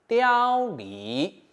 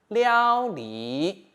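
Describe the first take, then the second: No difference in how they are said.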